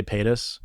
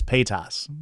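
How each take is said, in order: First: Paytas said PAY-tiss, short weak last vowel; quick, reduced second syllable in Paytas; Paytas with reduced ending. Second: Paytas said PAY-tahss, open last vowel; full, unreduced "-tahss" in Paytas; Paytas with Midwest ah. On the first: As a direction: say Paytas with an unstressed "-tuhs". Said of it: "I would say Paytas". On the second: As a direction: say Paytas with a drawn "ah" in the ending. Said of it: "my brain wants to say it as Paytas". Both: Shown as a demonstration.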